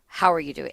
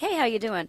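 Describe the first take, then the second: First: It is said in a firm, stern tone. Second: It is said in a light, casual tone.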